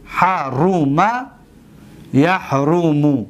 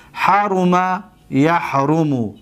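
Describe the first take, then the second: First: Slow, syllable by syllable; measured teacher's demonstration, vowels held long; slow dictation. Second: Said in the usual way. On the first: Shown as a demonstration. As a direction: stretch out each vowel for students to follow. Repeats the example slowly for class.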